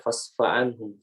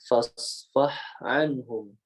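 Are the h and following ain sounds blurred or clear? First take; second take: blurred; clear. First: The h and ain sounds run together unclearly. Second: The h and ain sounds are clearly separated. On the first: The speaker calls it wrong. "Jangan sampai" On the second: The speaker calls it right. "Jadi harusnya"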